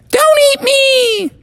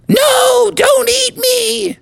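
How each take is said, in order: First: Very high, loud squeaky cry; screaming candy bar. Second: Very high, slow squeaky scream; screaming candy bar. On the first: Candy bar pleading again, high squeaky crying shout. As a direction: shriek the plea again, louder. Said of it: "the voice repeated". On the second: Candy bar begging not to be eaten, squeaky scream. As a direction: shriek it like a tiny terrified candy. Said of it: "screamed the voice". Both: Acted.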